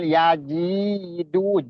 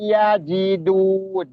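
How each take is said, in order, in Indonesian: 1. Vokal tengahnya dipanjangkan. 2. Vokal tengahnya pendek. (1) "bukan yajidu" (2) "ji-nya nggak ada mat"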